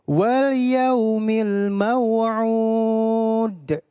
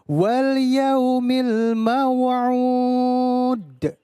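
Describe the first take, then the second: The two takes are said the same way.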